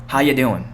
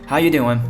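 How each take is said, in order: No difference in how they are said.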